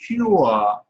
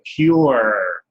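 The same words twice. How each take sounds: First: It is said in a British accent. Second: It is said in an American accent.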